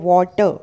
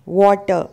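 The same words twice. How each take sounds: Both takes have the same delivery.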